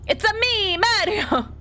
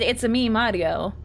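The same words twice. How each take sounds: First: High, exuberant mock Italian catchphrase; Mario. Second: Lightly voiced mock Italian catchphrase; Mario. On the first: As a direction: burst out in a high cartoon Italian voice. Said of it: "if you had come up and you had said". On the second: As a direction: quote it with just a hint of cartoon Italian. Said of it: "you had come up and you had said".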